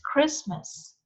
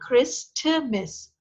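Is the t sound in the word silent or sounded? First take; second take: silent; sounded. First: The t sound is left out in the middle. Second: The t sound is pronounced in the middle. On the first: The speaker calls it right. "Here the letter T is silent" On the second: The speaker calls it wrong. "You will not pronounce it Christmas"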